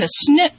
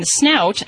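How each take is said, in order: First: "snoot" with a long oo, rising; slip to "snoot". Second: Said in the usual way. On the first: Real, not acted. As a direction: say "snoot", rhyming with boot. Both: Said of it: "I call it the snoot too".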